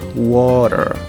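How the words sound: It has a strong retroflex American R. "No inglês americano, esse R ele vai ser forte. É um R que a gente chama de R retroflexo"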